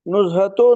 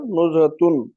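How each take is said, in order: First: The word ends on a vowel without n. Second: The word ends with an added n sound. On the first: The speaker calls it wrong. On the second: The speaker calls it right.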